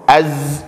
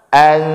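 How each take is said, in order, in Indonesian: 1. N menyatu ke bunyi z. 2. N-nya kabur, lidah menggantung. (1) "az jadi idgham" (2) "Maka jadilah bacaannya an"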